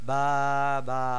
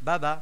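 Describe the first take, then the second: First: The two syllables are drawn out and separated. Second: The two syllables are said quickly together. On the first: The speaker calls it wrong. "নট বা বা" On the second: The speaker calls it right. "হরকতের উচ্চারণ তাড়াতাড়ি করতে হয়"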